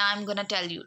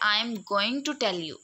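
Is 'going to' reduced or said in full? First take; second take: reduced; full. First: 'Going to' is reduced to 'gonna'. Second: 'Going to' is said in full. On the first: "हम sentence use करते हैं" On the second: "वो यही चीज use करते हैं"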